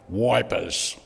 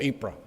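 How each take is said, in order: First: The name starts with a W sound. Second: The name starts with a vowel sound. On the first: It is the soldiers' anglicized version. "like the diggers used to say" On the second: It is the local French version. "instead of Eep or Ypres"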